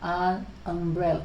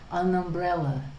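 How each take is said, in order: First: The two words are said separately. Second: The two words are joined together smoothly. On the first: The speaker calls it wrong. "instead of saying an umbrella" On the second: The speaker calls it right. "make it sound uh, together, linked"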